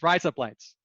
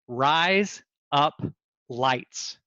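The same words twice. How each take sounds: First: The words are run together quickly into one. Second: The words are said separately at a normal pace. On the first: "if you say that quickly enough, it sounds like you're saying razor blades with an Australian accent" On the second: "If you say the words"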